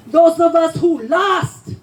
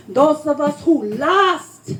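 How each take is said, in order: Both takes have the same delivery.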